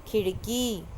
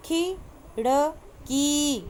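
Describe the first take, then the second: First: Said in the usual way. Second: खिड़की very slow, final ee drawn; teacher modelling खिड़की; slow stretched word. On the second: Shown as a demonstration. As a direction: drag खिड़की out. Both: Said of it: "बोल बोल कर पढ़ना है".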